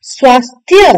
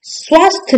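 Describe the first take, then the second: First: स्वास्थ्य as "swaas-thya"; correct ya ending. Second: स्वास्थ्य ending at "swaasth"; wrong dropped ya. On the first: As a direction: sound the final ya of स्वास्थ्य. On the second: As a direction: drop the final ya of स्वास्थ्य. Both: Shown as a demonstration. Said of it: "स्वास्थ्य नहीं".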